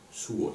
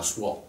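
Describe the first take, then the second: First: "suo" said as one quick syllable, no stress; right single syllable. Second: "suo" split into two syllables, su-o; wrong two syllables. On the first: Teacher giving the correct one-syllable "suo". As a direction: glide "suo" into one beat. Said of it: "justement, ici, c'est suo". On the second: Teacher warning against hearing "suo" as two syllables. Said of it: "pas suo". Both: Shown as a demonstration.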